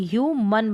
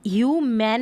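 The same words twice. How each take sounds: First: ह्यूमन as "hyoo-mun", short vowel at the end; reduced ending. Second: ह्यूमन as "hyoo-man", full "man" ending; mispronunciation demo. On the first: Teacher correcting how human is read, reduced ending. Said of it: "ह्यूमन बन जाएगा". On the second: Teacher showing the reading to avoid, mispronunciation demo. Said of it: "ह्यूमन नहीं पढ़ेंगे". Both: Shown as a demonstration.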